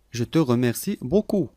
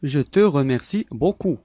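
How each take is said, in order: Both takes have the same delivery.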